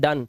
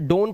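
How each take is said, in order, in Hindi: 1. स्वर छोटी 'uh' आवाज़ है। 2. स्वर लंबी 'oh' आवाज़ है। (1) "लेकिन पढ़ते हैं डन" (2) "इसे डोन पढ़ना चाहिए"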